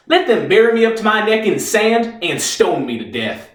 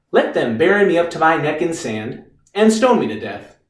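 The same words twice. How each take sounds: First: Higher-pitched, grand martyr's speech; defiant declaiming. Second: Matter-of-fact lawyer repeating a client's speech; sceptical quoting back. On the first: Reeves performs his act for the lawyer, defiantly declaimed. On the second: Lawyer quotes Reeves's act back at him, sceptical and restrained. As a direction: repeat it back without the heroics. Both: Acted.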